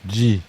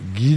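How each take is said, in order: First: It starts with a soft j sound. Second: It starts with a hard g sound. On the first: This is the Japanese pronunciation. "en japonais se prononce comme son écriture en katakana, Ji" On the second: This is the Italian pronunciation. "dans le mot italien, se prononce comme le mot français Guy"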